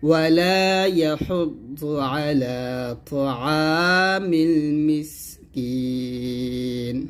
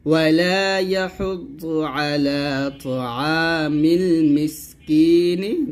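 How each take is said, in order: First: Very slow chant, holding المسكين long onto a closed n; pausal ending. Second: Slow chant ending المسكين with an audible short "ni"; voweled ending. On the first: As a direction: stop on المسكين with no final vowel. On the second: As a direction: sound a final i on المسكين. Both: Shown as a demonstration. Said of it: "যদি থামেন তাহলে বলতে হবে".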